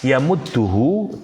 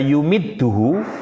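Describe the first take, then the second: First: The first syllable has an 'a' vowel. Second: The first syllable has a 'u' vowel. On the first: It comes from the word for ink. "kalau dibaca ya mudduhu dia berasal dari kata midad" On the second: It comes from the word for supporting or adding. "dhammah pada huruf ya-nya"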